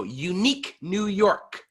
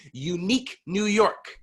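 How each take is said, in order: First: Unique New York slow with sharp consonants; over-articulate unique New York; exaggerated tongue twister drill. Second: Unique New York said slowly and clearly; careful tongue twister demo. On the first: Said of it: "Even louder, more resonant, and sharper with the consonants". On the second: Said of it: "we are going to say first". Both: Shown as a demonstration.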